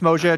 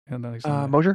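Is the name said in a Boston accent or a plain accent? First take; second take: Boston; plain. First: The name is said in a Boston accent. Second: The name is said in a plain accent.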